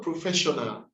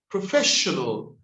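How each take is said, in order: First: Professional ending in an open 'ah'; wrong pronunciation. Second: Professional with a reduced, dark-L ending; corrected pronunciation. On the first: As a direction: mimic the slip professional as pro-FESH-o-nah. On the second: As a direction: model professional as pruh-FESH-uh-nul. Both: Shown as a demonstration. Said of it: "not professional".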